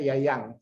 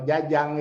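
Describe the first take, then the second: First: The name begins with a Y sound. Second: The name begins with a J sound. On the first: "dibacanya Yayang" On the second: "kalau Jajang itu"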